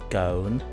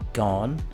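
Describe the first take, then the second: First: The vowel is long, as in 'own'. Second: The vowel is short, as in 'on'. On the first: The speaker calls it wrong. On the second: The speaker calls it right. "There are a few exceptions here, like gone"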